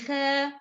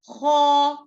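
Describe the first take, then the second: First: The sound is light, without a raised back tongue. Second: The sound is heavy, with the back tongue raised. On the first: The speaker calls it wrong. "Don't say ha" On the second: The speaker calls it right. "this is a heavy letter"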